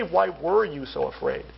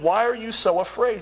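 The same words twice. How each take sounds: First: "were" stressed with a falling tune. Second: "are" stressed with a rising tune. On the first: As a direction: lean on "were", past tense. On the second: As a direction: lean on "are", present tense. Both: Shown as a demonstration. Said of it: "He doesn't say".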